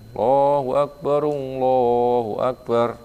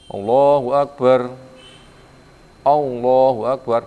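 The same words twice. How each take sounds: First: The two phrases run together without a pause. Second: The two phrases are separated by a pause. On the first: The speaker calls it right. "dibaca gandeng, gabung" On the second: The speaker calls it wrong.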